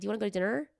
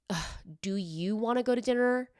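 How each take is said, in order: First: It sounds warm and eager. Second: It sounds annoyed and reluctant.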